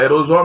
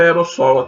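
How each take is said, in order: First: The middle consonant sounds like a buzzing z. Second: The middle consonant is a hissing s. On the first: This is how people commonly say it. The speaker calls it wrong. "a gente fala aerosol" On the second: This is the proper pronunciation. The speaker calls it right. "mas é aerossol a, a, a pronúncia"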